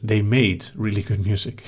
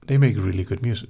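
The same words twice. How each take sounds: First: Correcting to "made", weight on made; stress on made. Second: Said in the usual way. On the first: Shown as a demonstration. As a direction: lean on the word "made" as a correction.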